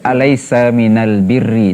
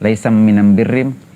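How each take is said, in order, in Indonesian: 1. Artikel itu diucapkan dengan bunyi l. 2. Artikel itu diucapkan dengan bunyi m. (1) "itu bahasa kita" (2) "bahasa mereka semuanya pakai m"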